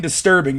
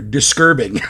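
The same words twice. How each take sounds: First: Said in the usual way. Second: "Disturbing" said as "diskerbing"; invented mispronunciation. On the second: Shown as a demonstration. Streamer shows off his new dictionary word, "Disturbing" mispronounced "diskerbing". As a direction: swap the t in "Disturbing" for a k. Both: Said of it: "I'm inventing a new goddamn fucking dictionary".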